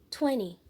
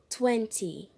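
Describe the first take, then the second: First: It is said in an American accent. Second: It is said in a British accent. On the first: "no inglês americano, você pode ouvir twenty" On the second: "no inglês britânico, você pode ouvir twenty"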